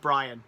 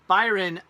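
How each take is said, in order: First: The name sounds like 'Brian'. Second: The name sounds like 'Byron'. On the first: The speaker calls it right. "Oh, Brian" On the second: The speaker calls it wrong. "did I say that right?"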